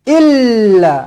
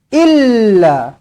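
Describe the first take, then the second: The two takes are said the same way.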